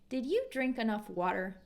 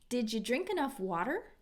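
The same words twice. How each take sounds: First: 'Did you' is said as two clear words. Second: 'Did you' blends together with a J sound.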